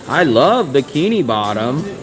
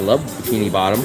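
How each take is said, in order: First: It is said at a louder volume. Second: It is said at a normal, quieter volume.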